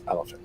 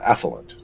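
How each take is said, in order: First: The word is said as elephant. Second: The word is said as effluent. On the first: The speaker calls it right. "like it's elephant, Grandpa" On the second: The speaker calls it wrong. "he'd say uh, effluent"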